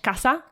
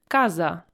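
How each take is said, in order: First: The middle consonant is a hissing S sound. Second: The middle consonant is a buzzing Z sound. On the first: This is how the word sounds in Spanish. The speaker calls it wrong. "it's not like Spanish" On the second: This is how the word sounds in Catalan. The speaker calls it right. "it's more of a Z sound, almost like a Z"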